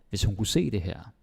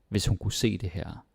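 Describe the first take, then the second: The two takes are said the same way.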